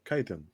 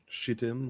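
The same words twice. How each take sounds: First: The word begins with a K sound. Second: The word begins with a CH sound. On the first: The speaker calls it right. "it's pronounced chitin" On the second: The speaker calls it wrong. "instead of uh"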